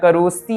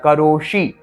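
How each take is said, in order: First: The sibilant is made behind the teeth. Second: The sibilant is made with the tongue curled back. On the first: The speaker calls it wrong. "मैं करोस्ती नहीं बोल रहा हूं" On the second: The speaker calls it right. "देखिए इसे मूर्धन्य स्थान से बोला जाता है जहां से ट बोला जाता है"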